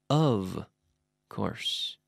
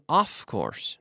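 First: The first word ends in a voiced V sound. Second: The first word ends in a voiceless F sound. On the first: The speaker calls it right. "the F is pronounced like a V" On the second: The speaker calls it wrong. "make sure you're not saying off course"

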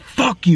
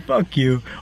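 First: The voice sounds angry and hostile. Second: The voice sounds happy and friendly. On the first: The speaker means it as an insult. "Same words. You said it with a different energy" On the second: The speaker is joking in a good mood. "you could be happy as hell. You know what I'm saying? You'd be like"

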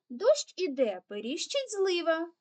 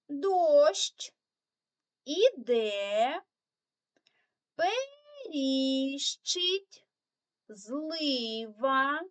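First: The phrase is read very fast. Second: The phrase is read slowly. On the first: "Тепер ще швидше" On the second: "прочитаємо цю скоромовочку разом повільно"

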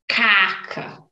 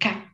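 First: The stress is on the first syllable. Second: The stress is on the last syllable. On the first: The speaker calls it wrong. "so don't say caca" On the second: The speaker calls it right. "So the strongest syllable is the last one"

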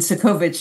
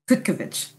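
First: The first C is not said as a hard sound. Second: The first C is said as a hard sound. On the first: The name is an insult. The speaker calls it wrong. "Cudkowicz is the not so nice way" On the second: The name means wonderful. The speaker calls it right. "The wonderful way is with a hard C"

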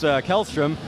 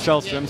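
First: The name is said in an English way. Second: The name is said in a Swedish way. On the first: The speaker calls it wrong. "I kept hearing your name pronounced Kjellström" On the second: The speaker calls it right. "the correct Swedish pronunciation is Kjellström"

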